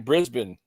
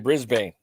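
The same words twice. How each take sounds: First: The name is said in an Australian accent. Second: The name is said in an American accent. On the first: "in Australia they say Brisbane" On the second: "in America we say Brisbane"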